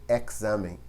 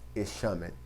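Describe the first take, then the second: First: The x is said as 'ks'. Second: The x is not said as 'ks'. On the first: The speaker calls it right. "A gente falaria sempre examen em espanhol. Então ela tem uma sonoridade como se fosse um K S" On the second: The speaker calls it wrong. "a gente não falaria jamais"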